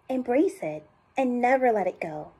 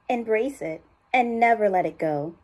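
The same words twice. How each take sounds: First: It is said in a high voice. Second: It is said in a lower voice.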